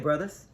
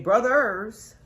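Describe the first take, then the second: First: The final R is dropped. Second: The final R is pronounced strongly. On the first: "we don't put the hard R on the end of it" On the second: "we don't say brothers"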